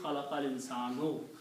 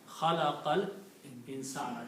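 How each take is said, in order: First: The last word ends with an 'oo' vowel. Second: The last word ends with an 'ah' vowel. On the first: The speaker calls it wrong. "You will not speak khalaqal insanu" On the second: The speaker calls it right. "this Dhamma will be pronounced as Fatah"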